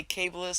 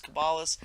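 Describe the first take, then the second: First: Kabbalist said "KAY-buh-list"; own pronunciation. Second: Kabbalist said "kuh-BAH-list"; alternative pronunciation. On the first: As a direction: say Kabbalist with a long "kay" at the front. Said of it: "when I say Kabbalist". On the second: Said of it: "some people say Kabbalist". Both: Shown as a demonstration.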